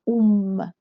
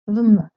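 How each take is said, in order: First: It begins with a u vowel before m. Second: It begins with a v sound before m. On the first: The speaker calls it right. "it's much easier to pronounce it like um" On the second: The speaker calls it wrong. "it's not easy to pronounce v and m one after the other"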